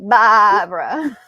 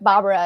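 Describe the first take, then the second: First: The name is said with strong, lively enthusiasm. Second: The name is said flatly, without much enthusiasm. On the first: The speaker calls it right. "really Barbara" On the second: The speaker calls it wrong. "I don't say her name with enough enthusiasm"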